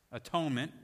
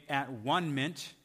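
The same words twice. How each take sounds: First: Said in the usual way. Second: "at-one-ment" slowly, as three separate words: at, one, ment; split pronunciation. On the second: Shown as a demonstration. Preacher showing the roots of atonement, "at-one-ment" pulled apart word by word.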